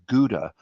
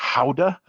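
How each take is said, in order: First: The word is said with an American pronunciation. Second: The word is said with a Dutch pronunciation. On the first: "Americans and the most of the world pronounce that as Gouda" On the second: "the Dutch pronunciation is Gouda"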